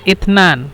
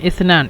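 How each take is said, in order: First: The word begins with a hard t sound. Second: The word begins with a soft th sound. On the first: This is the Egyptian dialect form. "ইসনানকে মিশরে ইতনান ব্যবহার করে" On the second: This is the standard form.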